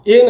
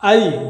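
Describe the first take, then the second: First: The vowel is a single steady e sound. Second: The vowel glides from a to i. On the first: The speaker calls it wrong. "ए नहीं होता है" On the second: The speaker calls it right. "इसका सही उच्चारण आई होता है"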